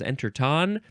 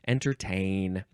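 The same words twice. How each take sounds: First: The last syllable has an 'ah' vowel. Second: The last syllable has an 'ay' vowel. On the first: The speaker calls it wrong. "I thought that the pronunciation had the umlaut over the A" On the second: The speaker calls it right. "I realized it was a long A"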